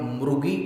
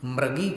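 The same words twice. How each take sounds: First: The first vowel sounds like u. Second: The first vowel sounds like a. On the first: The speaker calls it wrong. "मृगी या मृगी क्यों नहीं बोल रहे हैं" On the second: The speaker calls it right. "मृगी और मृगेंद्र में अ जैसा उच्चारण किया है"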